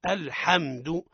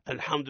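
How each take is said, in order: First: The ha is clear with a plain open vowel. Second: The ha is exaggeratedly thick and heavy. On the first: The speaker calls it right. "إذن الصواب" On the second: The speaker calls it wrong. "إما المبالغة في تفخيمه"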